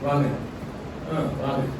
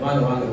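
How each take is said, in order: First: It sounds drawn out and unwelcoming. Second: It sounds warm and welcoming. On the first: The guest is not really wanted. "நாம் வருவதை விரும்பவில்லை" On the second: The guest is truly welcome. "ரொம்ப மகிழ்ச்சி"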